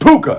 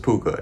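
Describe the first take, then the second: First: It is said loudly, with exclamatory excitement. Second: It is said plainly, without excitement.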